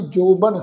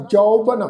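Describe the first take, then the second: First: ਜੋਬਨ with a plain o vowel; wrong way. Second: ਜੌਬਨ with the open au vowel of kanaura; right way. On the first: Teacher showing the congregation the wrong reading of ਜੋਬਨ. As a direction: say ਜੋਬਨ with the short hora o sound. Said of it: "ਇਸ ਢੰਗ ਨਾਲ ਨਹੀਂ ਕਰਨਾ". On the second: Teacher showing the correct kanaura reading of ਜੌਬਨ. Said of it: "ਇਸ ਦਾ ਉਚਾਰਨ ਕਰਾਂਗੇ". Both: Shown as a demonstration.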